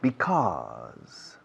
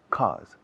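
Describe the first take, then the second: First: The word is said in full with both syllables. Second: The first syllable is dropped, leaving one syllable. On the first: The speaker calls it right. "Yo lo pronuncio because" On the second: The speaker calls it wrong. "Nos comemos el be delante, pero no os lo recomiendo"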